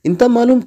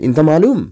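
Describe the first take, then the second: First: The voice stays level without a push. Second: The voice is pushed up like a question. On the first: It states that you know. "তুমি জানো" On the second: It asks whether you know. "যখন আমি ধাক্কা দিব তখন প্রশ্ন হয়ে যাবে"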